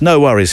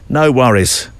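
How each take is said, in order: First: Friend's mildly Australian twang, pitched higher; slight Australian twang. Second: Said in the usual way. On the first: Retold or imitated. Quoting a friend in Perth, slight Australian twang. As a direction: lightly imitate an Australian twang. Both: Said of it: "with a slightly more Australian twang".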